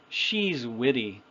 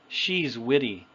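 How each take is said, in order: The two takes are said the same way.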